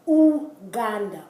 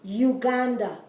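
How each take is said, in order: First: The word is said in a Spanish way. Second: The word is said in an English way. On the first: The speaker calls it right. "It's Uganda" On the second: The speaker calls it wrong. "in English, you would say U, Uganda"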